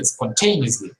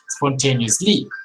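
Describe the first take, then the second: First: The stress falls on the usual English syllable. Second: The stress falls on a non-English syllable. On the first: The speaker calls it right. "No, we say spontaneously" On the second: The speaker calls it wrong. "We don't say spontaneously"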